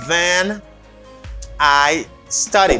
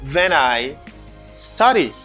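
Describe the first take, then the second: First: It is said at a normal, unhurried pace. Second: It is said slightly faster, words run together.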